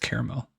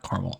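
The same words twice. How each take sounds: First: The word is said with the middle vowel. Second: The word is said without the middle vowel. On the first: The speaker calls it right. "you're saying that extra A" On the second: The speaker calls it wrong. "It's not caramel"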